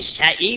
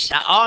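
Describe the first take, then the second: First: The word ends in an 'ee'-like vowel. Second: The word ends in an open 'ah' vowel. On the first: "یکی سعی میخونه" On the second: This is how the Quraysh tribe reads it. "قریش سعا میخونه"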